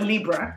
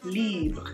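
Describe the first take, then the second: First: The ending is said like English 'Libra'. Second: The ending is said the French way. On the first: The speaker calls it wrong. "I feel like Libra sounds bad" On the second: The speaker calls it right. "you pronounce the R E like the French would"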